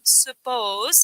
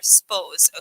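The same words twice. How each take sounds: First: The first-syllable vowel is pronounced. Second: The first-syllable vowel is left out.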